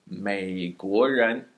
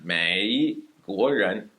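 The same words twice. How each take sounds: First: 美国人 said very slowly, 美 kept low and not rising; low third tone. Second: 美国人 said slowly with 美 dipping and coming back up; wrong tone demo. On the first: Teacher shows learners the right tones, very slow. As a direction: hold 美 low then rise on 国人. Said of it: "a low third tone that does not come back up". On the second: Teacher shows students the mistake to avoid, slow. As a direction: model the wrong 美 that rises again. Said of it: "It is not 美国人". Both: Shown as a demonstration.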